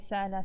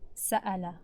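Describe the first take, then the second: First: The middle glottal stop is weak or missing. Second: The middle glottal stop is clearly closed. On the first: The speaker calls it wrong. "You don't want to say" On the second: The speaker calls it right. "Show the hamza"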